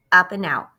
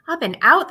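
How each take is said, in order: First: Said in the usual way. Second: High, loud, amazed; light up at the words; excited wonder. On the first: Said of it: "It said". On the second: Acted. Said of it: "thought Charlie".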